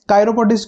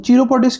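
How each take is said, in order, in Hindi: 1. यह शब्द 'k' ध्वनि से शुरू होता है। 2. यह शब्द 'ch' ध्वनि से शुरू होता है। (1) "कायरोपोडिस्ट क्यों बोलते हैं" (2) "इसको चीरो चीरोपोडिस्ट क्यों नहीं बोलते"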